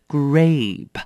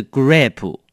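First: Grape ending cleanly on the p, no extra vowel; correct grape. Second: Grape with an extra u vowel tacked on the end; wrong grape. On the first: Teacher giving students the right grape. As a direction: clip grape off at the p. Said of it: "是grape". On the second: Teacher warning students, a wrong grape. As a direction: add a vowel after the p of grape, the learner's mistake. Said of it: "也不是grape". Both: Shown as a demonstration.

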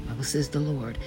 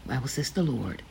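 No difference in how they are said.

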